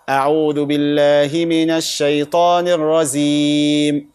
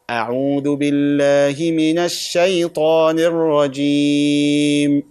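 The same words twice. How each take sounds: First: The j sound in the last word sounds like z. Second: The j sound in the last word is a clear j. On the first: The speaker calls it wrong. "they mix it between Jim and Zin or Za" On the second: The speaker calls it right. "we don't say Z, we say Jim"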